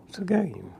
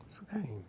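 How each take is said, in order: First: Said in the usual way. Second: Hushed, breathy whisper, almost no voice. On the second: Real, not acted. To the interviewer, softly whispering that it's a game. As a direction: drop to a secret whisper. Whispered aside about the joke.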